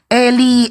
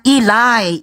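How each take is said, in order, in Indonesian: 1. Kata ini diucapkan 'Eli', dua suku kata pendek. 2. Kata ini diucapkan 'Ilai', berakhir dengan 'ai'. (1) "Datang orang Indonesia" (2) "Bacanya Ilai"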